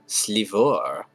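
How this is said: The name is said in a put-on accent. The speaker calls it right. "It with an accent, you see"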